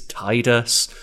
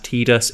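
First: The first syllable sounds like 'tide'. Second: The first syllable does not sound like 'tide'. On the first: The speaker calls it right. "it's Tidus" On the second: The speaker calls it wrong. "some people say it's pronounced Tidus"

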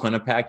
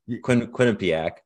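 First: Some sounds of the name are left out. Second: All sounds of the name are pronounced. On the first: The speaker calls it wrong. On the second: The speaker calls it right.

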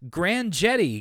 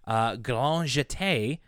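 First: The words get an anglicized, English-like pronunciation. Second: The words get a French pronunciation. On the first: "or as DW says" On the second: "all the French pronunciations of"

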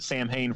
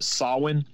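First: The word is pronounced the way it is spelled. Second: The word gets its older Celtic pronunciation. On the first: "I pronounced it Samhain for the longest time because that's how it's spelled" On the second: "I would have never thought that you would pronounce it Samhain, but it being an ancient Celtic holiday"

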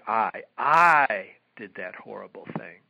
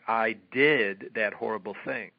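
First: The stress falls on "I". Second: The stress falls on "did" and "thing". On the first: The fault lies in the person (shame). "the emphasis is on the word I" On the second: The fault lies in the action (guilt). "the emphasis is on the words "did" and "thing.""

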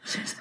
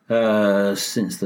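First: It is spoken in a whisper. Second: It is spoken in a normal voice.

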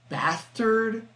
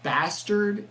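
First: The word is said in a high, feminine-sounding voice. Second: The word is said in a normal, ordinary voice. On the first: This mimics how someone else botched the word. The speaker calls it wrong. "he said, like, bastard instead of bastard" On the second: This is how the word should be said. The speaker calls it right. "instead of bastard"

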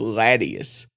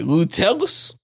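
First: The name begins with a short 'La' sound. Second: The name begins with a long 'Lou' sound. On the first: The speaker calls it right. "Loutilious is pronounced Latius" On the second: The speaker calls it wrong.

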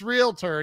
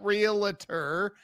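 First: No vowel is heard between L and T. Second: An extra vowel is inserted between L and T. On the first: The speaker calls it right. "there's no vowel between the L and T" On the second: The speaker calls it wrong. "Why are you doing that? It's not realtor"

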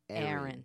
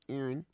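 First: The name is said with a plain voice. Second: The name is said with a nasal voice.

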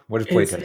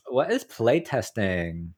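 First: It is said flatly without a questioning lilt. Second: It is said in an exaggerated Valley Girl voice. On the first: "You didn't have the inflection for it" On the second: "I'll do a Valley Girl"

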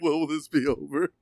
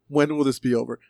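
First: It is said while laughing. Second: It is said without laughing.

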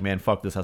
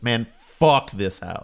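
First: The title is read in a plain, flat way. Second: The title is read with dramatic, exasperated feeling. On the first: The speaker calls it wrong. "I can't just read it like" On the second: The speaker calls it right.

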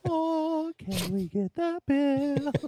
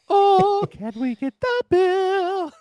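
First: It is said quietly. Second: It is said loudly.

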